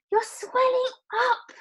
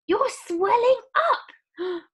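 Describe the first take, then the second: First: Very high, loud scream. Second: Very high, loud, slow horrified scream. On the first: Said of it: "screamed Missus Violet again". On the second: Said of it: "screamed Missus Beauregard". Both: Acted. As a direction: scream in horror.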